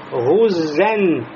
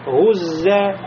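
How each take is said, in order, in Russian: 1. Слово заканчивается на звук «н». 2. Слово заканчивается на гласный, без «н». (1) "Если продолжаем чтение, будет гуззен, танвин, нун сукун в конце" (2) "А если останавливаемся, говорим просто"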